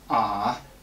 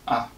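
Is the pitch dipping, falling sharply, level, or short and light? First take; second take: dipping; short. First: The pitch drags down low, then is released. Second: The syllable is very short and lazy. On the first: "Just drag it down and then release it" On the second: "Neutral tone sounds very short and very lazy"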